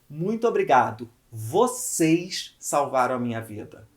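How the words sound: The stress is on "vocês".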